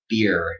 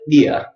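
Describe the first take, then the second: First: It is said in an American accent, with R. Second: It is said in a British accent, without R.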